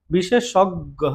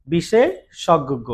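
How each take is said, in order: First: Said in the usual way. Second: বিশেষজ্ঞ said very slowly with a doubled গ at the end; slow careful demo. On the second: Shown as a demonstration. Teacher slowly modelling বিশেষজ্ঞ with a doubled গ. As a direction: stretch বিশেষজ্ঞ out and land hard on the double গ. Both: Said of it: "গ দুইবার হবে".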